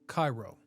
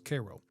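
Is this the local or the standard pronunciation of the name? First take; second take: standard; local. First: It is said in the usual, non-local way. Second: It is said the way local residents say it.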